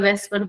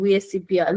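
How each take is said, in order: First: The acronym is said as one word. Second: The acronym is spelled out letter by letter. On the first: The speaker calls it wrong. "जिसको तुम वेस्पर वेस्पर बोलते हो" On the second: The speaker calls it right. "मैं इसको ये बोलता हूँ वीएससीपीआर"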